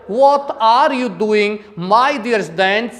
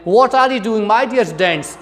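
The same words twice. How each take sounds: First: Slow, deliberate Arab English accent; Arab-accent demonstration. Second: Quicker imitated British accent; British-accent demonstration. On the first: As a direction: imitate Arab English, drawn out. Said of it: "इस प्रकार से अरब countries में बोला जाता है". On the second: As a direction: run it together in a British accent. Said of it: "British लहजे से बोलें". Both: Shown as a demonstration.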